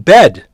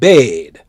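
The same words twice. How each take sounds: First: The vowel is short, as spelled B-E-D. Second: The vowel is drawn out, as if spelled B-E-A-D. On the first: The speaker calls it right. "It's B E D, bed" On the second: The speaker calls it wrong. "it's not B E A D, it's not bed"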